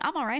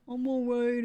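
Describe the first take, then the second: First: It is said with a bright, positive inflection. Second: It is said in a flat, downbeat way. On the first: Things are going well. The speaker calls it right. "using a nice positive inflection" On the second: Things are only barely fine. The speaker calls it wrong. "not I'm all right, I guess"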